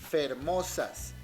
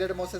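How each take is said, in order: First: The word begins with an f sound. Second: The word begins with a vowel sound, no f. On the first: This is the old form from the Quijote's Spanish. "decían fermosas" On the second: This is the modern form. "en vez de decir hermosas"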